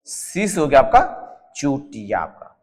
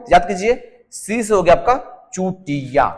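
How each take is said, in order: First: Slow and deliberate, spelling out Chutia for memory; slow, emphatic teacher repetition; slow drilled repeat. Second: Said in the usual way. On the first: Shown as a demonstration. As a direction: drill the line slowly so it sticks. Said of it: "teacher repeats mnemonic slowly". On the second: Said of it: "teacher repeats mnemonic line".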